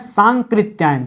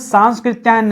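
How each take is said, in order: First: No 's' sound comes before the 'k'. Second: An 's' sound comes before the 'k'. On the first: The speaker calls it right. "उनको पढ़ते हैं सांकृत्यायन।" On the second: The speaker calls it wrong. "ये जो स लगाते हैं वो गलत है।"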